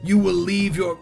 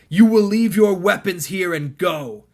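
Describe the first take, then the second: First: The voice is very gravelly and rough. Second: The voice is less gravelly and smoother.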